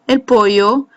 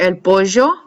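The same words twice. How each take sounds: First: The double L is said without a zh sound. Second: The double L is said with a zh sound.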